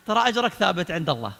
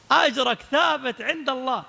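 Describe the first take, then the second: First: Said in the usual way. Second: "أجرك ثابت" higher, slow and stretched; emphatic repetition. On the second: Real, not acted. Preacher assuring failed peacemakers, "أجرك ثابت" slow and emphatic. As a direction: spell out "أجرك ثابت" slowly, word by word.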